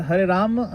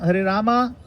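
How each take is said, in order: First: "Rama" said as Ram, ending on m; Rama cut to Ram. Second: "Rama" with a clear, raised a at the end; full final vowel. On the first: Teacher comparing chant pronunciations, final vowel dropped. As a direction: drop the last vowel of "Rama". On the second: Teacher questioning a pronunciation, final a sounded fully. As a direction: sound both syllables of "Rama", higher. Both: Shown as a demonstration. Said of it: "No, we don't say Rama".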